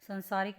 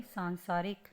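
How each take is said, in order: First: संसारिक with short first "a"; short opening syllable in संसारिक; wrong pronunciation. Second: सांसारिक with long first "aa"; long opening syllable in सांसारिक; correct pronunciation. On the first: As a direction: say संसारिक as san-saa-rik. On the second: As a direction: say सांसारिक as saan-saa-rik. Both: Shown as a demonstration. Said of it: "संसारिक नहीं".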